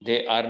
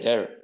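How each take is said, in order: First: Two separate full words are said. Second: The words run together into one syllable.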